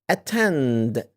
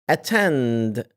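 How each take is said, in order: Both takes have the same delivery.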